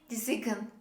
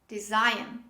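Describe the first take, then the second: First: The letter G is sounded in the word. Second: The letter G is silent in the word. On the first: The speaker calls it wrong. "We don't say design" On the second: The speaker calls it right. "This is design"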